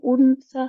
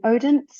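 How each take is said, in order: First: The name is said with a Danish-style pronunciation. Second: The name is said with an English-style pronunciation. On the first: "They say Odense" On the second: "but they don't say it that way"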